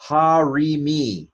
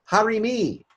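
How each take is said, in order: First: Harimi drawn out slowly, syllable by syllable; sounded out slowly. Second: Harimi said again much higher and quicker; high quick repeat. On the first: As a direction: stretch Harimi out for the class. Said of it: "So this is". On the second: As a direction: toss Harimi off high and fast. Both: Shown as a demonstration.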